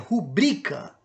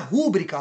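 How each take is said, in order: First: The stress is on the second syllable. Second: The stress is on the first syllable. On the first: The speaker calls it right. "é rubrica ... ela é paroxítona" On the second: The speaker calls it wrong. "não é rúbrica a pronúncia da palavra"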